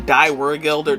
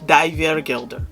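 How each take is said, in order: First: It is said in a plain English accent. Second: It is said in an imitated German accent. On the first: The speaker calls it wrong. "that's lame" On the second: The speaker calls it right. "That's that's the best I can do"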